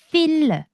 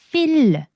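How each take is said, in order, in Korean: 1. 숨을 섞어서, 한국어처럼 혀를 써서 말해요. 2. 숨을 섞어서, 한국어처럼 혀를 써서 말해요.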